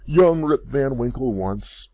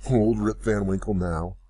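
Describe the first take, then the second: First: Put-on "young" drawn out slow, higher and louder; stress on young. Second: Put-on "old" stressed, voice settling back down. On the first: Father naming himself to daughter, "young" stressed. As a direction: lean hard on "young". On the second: Father naming himself to daughter, "old" stressed. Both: A narrator's reading. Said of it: "cried he".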